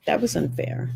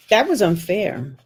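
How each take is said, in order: First: Soft whispered repeat of "That was unfair". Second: Said in the usual way. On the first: Real, not acted. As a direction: breathe it out as a whisper. Repeating in regret.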